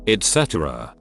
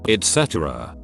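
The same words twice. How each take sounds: The two takes are said the same way.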